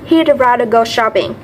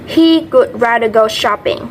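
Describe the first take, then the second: First: The words he would are contracted to he'd. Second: The words he would are said in full.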